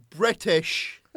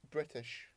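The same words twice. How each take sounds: First: British shouted high and loud; loud insistence. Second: Said in the usual way. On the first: Real, not acted. Correcting a co-host on his show's origin, loud insistent shout. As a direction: bellow British to win the argument.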